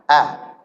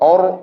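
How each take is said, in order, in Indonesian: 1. Vokalnya 'a' yang biasa dan terang. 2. Vokalnya gelap dan membulat seperti 'o'.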